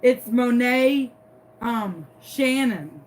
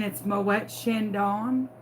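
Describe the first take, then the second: First: Monet Shannon said slowly, as mo-NAY SHAN-un; halting "Monet ... Shannon", with plain English SHAN-un; mispronounced champagne name. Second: Moet Chandon said slowly, as mo-ET shan-DON; measured "Moet Chandon", French-style sh and final stress; correct champagne pronunciation. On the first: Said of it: "couldn't even pronounce it". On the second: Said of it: "I could pronounce the bottle of champagne". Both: Retold or imitated.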